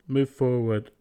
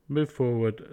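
No difference in how they are said.

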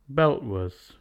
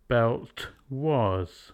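First: Belt ends with a glottal stop instead of T. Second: Belt ends with a released T sound.

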